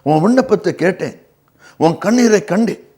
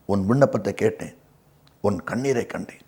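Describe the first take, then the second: First: Higher, full-voiced scripture promise; preacher's emphatic repeat of a promise; raised, emphatic assurance. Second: Quiet scripture promise, pitched well down; soft, low assurance. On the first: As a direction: lift the pitch and declare it. Repeats God's answer with emphasis. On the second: Acted. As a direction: quote it low and hushed. Quotes God answering Hezekiah's tears.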